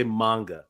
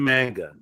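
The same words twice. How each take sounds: First: MANGA with a broad "ah" first vowel; Japanese-style pronunciation. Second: MANGA with a short "a" as in "man"; American pronunciation. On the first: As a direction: say MANGA as "MAHN-guh". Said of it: "can't stand when people say manga". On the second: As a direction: say MANGA as "MANG-guh". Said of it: "pronounce everything with an American accent". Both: Shown as a demonstration.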